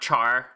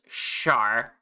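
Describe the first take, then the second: First: The name starts with a ch sound. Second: The name starts with a soft sh sound. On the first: The speaker calls it wrong. "not Char" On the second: The speaker calls it right. "My name is pronounced Shar"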